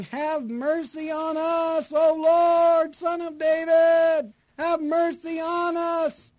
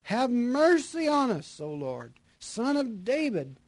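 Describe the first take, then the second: First: High, slow, shouted plea for mercy; desperate shout. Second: Raised, slow plea for mercy; calling cry. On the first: Blind beggars by the road shouting to Jesus for mercy. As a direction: cry out with everything you've got. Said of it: "cried out all the more". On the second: Blind men calling out to Jesus as he passes. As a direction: call to him from the roadside. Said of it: "cried out". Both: Acted.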